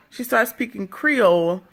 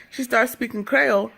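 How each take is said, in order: First: "Creole" with a long EE in the first syllable; Creole as "kree-ol". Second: "Creole" with an AY vowel in the first syllable; Creole as "Kreyol". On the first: Repeats it with the English pronunciation. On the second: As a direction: say "Creole" as "kray-ol". Says Creole two ways, back to back. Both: Shown as a demonstration.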